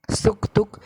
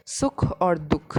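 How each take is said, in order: First: Said in the usual way. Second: सुख और दुख said slowly, with और stressed; और spoken slowly and clearly between सुख and दुख; slow expanded form. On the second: Shown as a demonstration. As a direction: spell it out slowly and lean on और.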